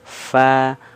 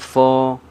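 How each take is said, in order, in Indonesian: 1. Vokalnya ringan dan tipis, seperti a. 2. Vokalnya berat dan membulat, seperti o. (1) "ini tipis" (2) "jangan fo"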